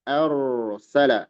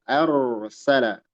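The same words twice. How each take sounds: No difference in how they are said.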